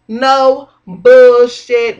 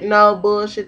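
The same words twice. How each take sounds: First: Slow, loud, drawn-out no bullshit; emphatic. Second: Said in the usual way. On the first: Real, not acted. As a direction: lean hard on no bullshit, stretching it slowly. Repeats phrase for emphasis.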